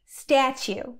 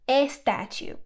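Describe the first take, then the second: First: The word begins directly with the s sound. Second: An extra e vowel comes before the s. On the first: The speaker calls it right. "debes decir statue" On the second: The speaker calls it wrong. "no a statue"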